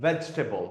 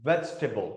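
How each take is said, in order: Both takes have the same delivery.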